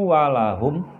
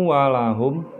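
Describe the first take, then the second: The two takes are said the same way.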